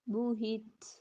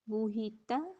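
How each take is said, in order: First: The word ends on a bare consonant. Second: The word ends on a short vowel.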